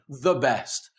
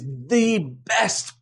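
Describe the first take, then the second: First: 'The' has a short vowel. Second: 'The' has a long E vowel. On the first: "It's not wrong to say the best" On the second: "when we want to emphasize the specificity of something"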